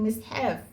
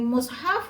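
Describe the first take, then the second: First: The first vowel is a front i sound. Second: The first vowel is a rounded u sound. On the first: "di kasrah" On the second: "Yang mimnya di dhammah"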